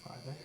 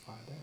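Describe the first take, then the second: No difference in how they are said.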